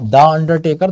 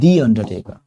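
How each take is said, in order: First: 'The' is said with a short 'thuh' vowel. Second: 'The' is said with a long 'thee' vowel. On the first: The speaker calls it wrong. "तो वो गलत हो जाता है" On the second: The speaker calls it right. "आपको कहना पड़ता है"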